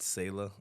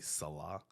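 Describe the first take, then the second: First: The name is said the family's English way. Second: The name is said the Hebrew-style way. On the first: This is how the family says the name. "So we pronounce it Selah" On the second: This is how the name may be said in Hebrew. "I think the Hebrew maybe Salah"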